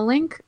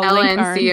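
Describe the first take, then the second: First: It is said as one word, link. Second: It is said as three separate letters. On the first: "like link is how people typically pronounce it" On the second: "you don't have to say LNC a million times, it gets hard"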